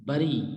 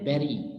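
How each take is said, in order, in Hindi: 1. पहला स्वर 'uh' जैसा बोला जाता है। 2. पहला स्वर 'eh' जैसा बोला जाता है। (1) "मिस प्रोनाउंस करते हैं" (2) "तो इसको हम पढ़ेंगे बेरी"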